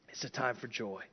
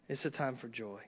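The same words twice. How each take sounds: No difference in how they are said.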